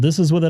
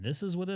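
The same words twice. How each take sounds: First: The voice sounds fuller, compressed and equalized. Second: The voice sounds thinner and less full range. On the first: The speaker calls it right. "So this is with it on" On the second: The speaker calls it wrong. "and this is with it off"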